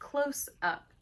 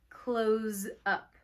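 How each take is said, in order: First: The word close ends with an s sound. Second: The word close ends with a z sound. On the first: A shot taken near the subject. The speaker calls it wrong. "I read this and I said close up" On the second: To shut a shop at the end of the day. The speaker calls it right. "you pronounce it with a Z"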